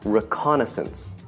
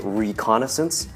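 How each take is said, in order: First: The stress falls on the syllable con. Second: The stress does not fall on con. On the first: "And stress on the con" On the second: "Some people might say reconnaissance, which is okay too"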